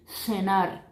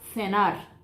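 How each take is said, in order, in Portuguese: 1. Começa com som de s sibilante. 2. Começa com som de th, com a língua entre os dentes. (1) "O som de doble S" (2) "eu puedo hablar interdental"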